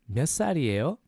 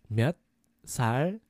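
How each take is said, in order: First: It is said at natural conversational speed. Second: It is said a little more slowly.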